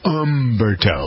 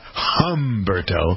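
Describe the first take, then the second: First: The name starts with a vowel, no H. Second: The name starts with an H sound. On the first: The speaker calls it right. "Don't sound the H in Umberto" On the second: The speaker calls it wrong. "It's not Humberto"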